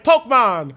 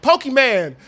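First: "Pokemon" said as "poke-mon", two syllables; mispronounced name. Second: "Pokemon" said as "pokey-man"; mispronounced name. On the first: Dad botching the show's name, "Pokemon" as "poke-mon". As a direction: drop the middle vowel of "Pokemon". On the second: Dad botching the show's name, "Pokemon" as "pokey-man". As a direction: say "Pokemon" wrong, ending in "man". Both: Retold or imitated. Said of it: "fucking up the name so much".

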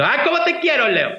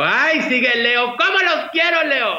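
First: High, excited cry of love for Leo; shouted gush. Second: High, drawn-out gushing call to the Leo fans; gushing cry to Leo fans. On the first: Host shouting her love to Leo fans, high pitched. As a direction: call it out up high, gushing. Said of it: "siempre grito". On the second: Host gushing to Leo viewers, high and drawn out. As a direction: sing it out big and adoring, like on her show. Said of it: "siempre hago mucho guato y les digo". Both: Retold or imitated.

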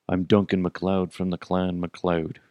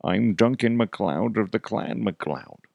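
First: Said in the usual way. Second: Put-on Highlander hero voice; Duncan MacLeod. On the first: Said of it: "not how you do the voice". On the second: Fan showing how the Highlander voice goes, put-on accent. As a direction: do the TV swordsman's accented introduction. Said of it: "It's more like".

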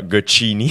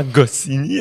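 First: Gocchini said with a hard ch in place of Goscinny's s sound; retold blunder: Gocchini, the s of Goscinny swapped for ch; mock-blundering the name as Gocchini; mispronounced name. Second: Goscinny with a clear s sound, said slowly and deliberately; retold correction: Goscinny spelled out in sound, slowly; slow correct Goscinny, as the director said it; correct name. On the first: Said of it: "j'avais jamais prononcé son nom". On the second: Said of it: "on va le reprendre".

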